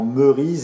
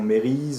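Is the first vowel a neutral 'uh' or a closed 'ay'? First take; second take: neutral 'uh'; closed 'ay'. First: The first vowel is a neutral 'uh' sound. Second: The first vowel is a closed 'ay' sound. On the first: The speaker calls it right. "prononcer justement Merise" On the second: The speaker calls it wrong. "et non Mérise"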